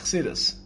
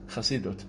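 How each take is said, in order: First: It is said Hasidic-style, ending in s, ches swallowed. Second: It is said with an Israeli pronunciation, ending in t.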